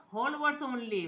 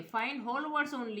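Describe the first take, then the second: First: Said in the usual way. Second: Slow, deliberate reading. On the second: Shown as a demonstration. Teacher showing students the option, very slowly. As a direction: read the menu option out very slowly. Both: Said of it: "ये वाला मैंने on कर दिया है".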